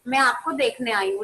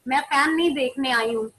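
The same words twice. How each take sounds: First: आपको pressed hard, the rest light; stress on आपको. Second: नहीं pressed hard, the rest light; stress on नहीं. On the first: Teacher telling the student she wants to see her, stressing आपको. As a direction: land on आपको to mark what she came to see. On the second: Teacher teasing a student whose camera shows the fan, stressing नहीं. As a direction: push the word नहीं to mark what she isn't here for. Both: Acted.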